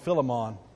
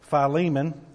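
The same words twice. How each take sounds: First: The name is said the childhood-church way. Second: The name is said the standard way. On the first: This is how the speaker's home church said it. The speaker calls it wrong. "if you grew up in the church I grew up in, we called it Philemon" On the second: This is the pronunciation taught at Bible college. The speaker calls it right. "turn to Philemon"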